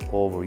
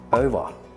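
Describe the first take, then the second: First: It is said with a non-Australian accent. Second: It is said with an Australian accent. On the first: The speaker calls it wrong. "you don't say over" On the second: The speaker calls it right. "you say over"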